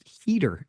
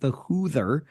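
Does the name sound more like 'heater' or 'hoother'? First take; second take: heater; hoother. First: The name is said like the word 'heater'. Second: The name is said with an 'oo' vowel. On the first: This is the proper pronunciation of the name. The speaker calls it right. "it's actually pronounced heater" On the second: This is how the name was said before learning better. The speaker calls it wrong. "I was always calling it the Hoother"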